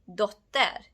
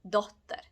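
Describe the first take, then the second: First: The stress is on the second syllable. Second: The stress is on the first syllable. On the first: The speaker calls it wrong. "It's not dotter" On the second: The speaker calls it right. "it's dotter"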